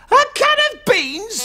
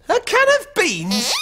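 First: Incredulous shout. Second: Said in the usual way. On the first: Real, not acted. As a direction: blurt it back in disbelief. Repeating a silly answer in disbelief.

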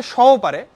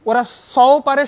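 First: "সও" said as shaw with a palatal sh; "সও" as a palatal sh, louder; palatal sh sound. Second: "সও" with a crisp dental s, loud and slow; "সও" stressed, dental s, slow and loud; dental s sound. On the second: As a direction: say "সও" with a sharp hissed s, drawn out. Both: Shown as a demonstration. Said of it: "ঠিক জায়গায় উচ্চারণ করবে না".

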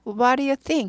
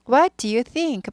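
First: "what do you think" run together fast as "wa-ri-ju-think"; quick connected "what do you think"; fast linked. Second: "What do you think" drawn out slowly, each word apart; slow model. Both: Shown as a demonstration. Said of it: "빨리 하면".

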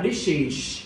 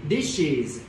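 First: DISHES wrongly ending in a hushed s or sh; wrong final hiss. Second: DISHES ending in a voiced z sound; correct final z. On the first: Teacher shows students the mistake, DISHES with a voiceless ending. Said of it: "chứ không phải là". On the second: Teacher corrects a student's ending, DISHES with final z. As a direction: say DISHES with a buzzing z at the end. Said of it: "âm giờ chứ không phải âm sờ". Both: Shown as a demonstration.

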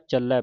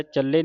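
First: ਚੱਲੈ ending in an open "ai"; ਚੱਲੈ as "chal-lai", the corrected reading. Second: ਚੱਲੇ ending in a closed "ay"; ਚੱਲੇ as "chal-lay", the mistaken reading. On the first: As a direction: open up the last vowel of ਚੱਲੈ. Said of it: "ਪੜ੍ਹਨਾ". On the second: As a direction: end ਚੱਲੇ on a narrow e. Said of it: "ਨਹੀਂ ਪੜ੍ਹਨਾ". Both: Shown as a demonstration.

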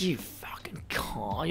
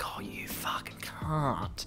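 First: Whispered insult. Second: Soft whispered Australian insult, fond; Australian accent, affectionate hushed whisper; Australian endearment. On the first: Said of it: "Instead of, like". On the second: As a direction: breathe it like an Australian term of endearment. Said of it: "But in an Australian accent, in terms of endearment". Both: Shown as a demonstration.

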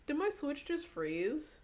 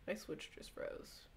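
First: High, slow, disbelieving; startled question. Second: Soft, slow, resigned whisper; deflated murmur. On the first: Streamer asks chat if the Switch froze, high and slow. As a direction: stretch it out in disbelief. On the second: Streamer admits to chat the Switch froze, a soft resigned whisper. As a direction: let it drop, beaten. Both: Real, not acted.

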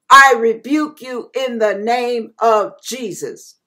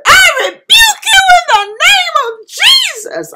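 First: Said in the usual way. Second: Much higher, louder crying scream; tearful shout driving the demon away; desperate scream. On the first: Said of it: "I said it over and over". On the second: Retold or imitated. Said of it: "I was screaming at that point".

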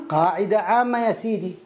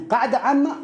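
First: قاعدة عامة in usual pitch with a falling end; confirming answer. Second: قاعدة عامة lifted higher with a rising end; questioning. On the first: Teacher confirming the rule to a student, falling statement. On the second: Student checking the rule with the teacher, questioning rise. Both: Acted.

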